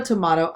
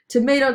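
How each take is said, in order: First: "tomato" as "tuh-MAH-toh"; broad A. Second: "Tomato" as "tuh-MAY-toh"; long A. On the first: Joking about the gif debate, "tomato" with an AH. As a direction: say "tomato" with the middle vowel of "ma". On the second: Joking about the gif debate, "Tomato" with a long A. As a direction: say "Tomato" with the middle vowel of "may". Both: Shown as a demonstration. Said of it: "What's the debate?".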